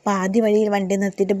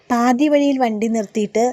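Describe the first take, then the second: First: Said in the usual way. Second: പാതി വഴിയിൽ said louder and higher; dramatic emphasis on the stop; emphatic telling. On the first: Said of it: "repeated phrase, plain take". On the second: Shown as a demonstration. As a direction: build suspense on വഴിയിൽ. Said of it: "repeated phrase, first take emphatic".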